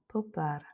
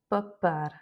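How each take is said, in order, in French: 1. Les sons P sont relâchés très doucement. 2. Les sons P sont poussés fortement. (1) "C'est vraiment très doux" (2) "Et non pas popar"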